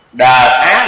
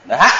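First: "Đờ á" split into two syllables; separated syllables. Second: "Đ-, á" run together fast as one aspirated syllable; quick blend. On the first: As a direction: say "Đờ" and "á" apart, before blending. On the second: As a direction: blend "Đ-, á" into a breathy dha. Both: Shown as a demonstration. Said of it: "mà đọc nhanh".

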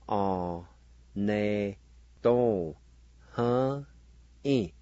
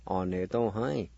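First: "or, ne, to, huh, e" in long, separate syllables; syllable-by-syllable pronunciation. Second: "Honesto, huh" run together as a single word; whole-word pronunciation. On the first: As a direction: sound out "or, ne, to, huh, e" with gaps. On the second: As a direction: say "Honesto, huh" through in one go. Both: Shown as a demonstration. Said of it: "now pronounce these words".

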